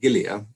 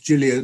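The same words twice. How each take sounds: First: The name is pronounced the English way. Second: The name is pronounced the Italian way. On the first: It ignores the namesake's own pronunciation. The speaker calls it wrong. "not Gilia" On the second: It follows the namesake's own pronunciation. The speaker calls it right. "it's polite when botanizing somebody's name to pronounce it in the way that he would pronounce it"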